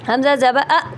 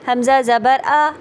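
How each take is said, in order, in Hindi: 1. अंतिम स्वर झटके के साथ काटा गया है। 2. अंतिम स्वर छोटा और सहज है। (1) "ये झटका" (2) "नॉर्मल तरीके से"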